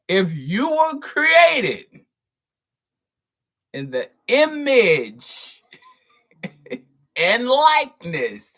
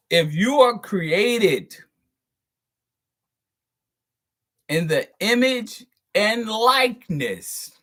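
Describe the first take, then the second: First: Very slow, loud and high emphasis; exaggeratedly drawn-out, raised-voice repeat; for the slow folks. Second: Slow, deliberate emphasis; measured, weighty delivery; leaning into it. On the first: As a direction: spell it out loudly for slow listeners. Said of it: "say this again for the slow folks". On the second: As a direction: draw the phrase out to make the point. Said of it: "I'ma lean into this one". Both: Real, not acted.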